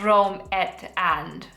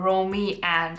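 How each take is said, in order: First: The name is said as Rome-et-and. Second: The name is said as Romy-and. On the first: "I kept mispronouncing this" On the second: "as I was pronouncing it"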